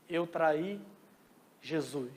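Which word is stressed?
Jesus. The stress is on "Jesus".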